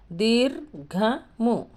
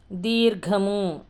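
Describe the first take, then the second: First: దీర్ఘము very slowly, with gaps between దీర్, ఘ and ము; syllable by syllable. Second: దీర్ఘము drawn out as one connected word; slow pronunciation. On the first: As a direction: chop దీర్ఘము into separate drawn syllables. Teacher breaks word into syllables. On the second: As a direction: stretch the vowels of దీర్ఘము clearly. Teacher demonstrates a conjunct word. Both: Shown as a demonstration.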